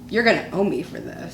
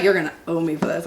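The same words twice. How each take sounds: First: Imitating husband, quiet and low; low mock grumble. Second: Imitated husband, low and laughing; low laughing grumble. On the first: Husband warning his wife after the video, quiet imitated grumble. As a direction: grumble it under your breath. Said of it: "he looks at me and goes". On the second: Wife retelling her husband's threat, laughing low imitation. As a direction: laugh through a mock grumble. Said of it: "He's like".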